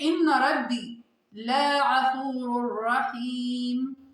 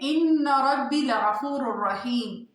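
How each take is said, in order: First: The vowel is stretched out and held long. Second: The vowel is kept short, not stretched. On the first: The speaker calls it wrong. "तजवीद के बगैर पढ़ते हैं" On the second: The speaker calls it right. "आपने इसे बिल्कुल भी खींचना नहीं है"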